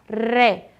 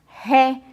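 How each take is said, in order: First: The R is a light tongue tap. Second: The R is a strong, harsh throat sound. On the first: "mais fraquinho, aquele que treme a linguinha um pouquinho" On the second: "o som é mais forte"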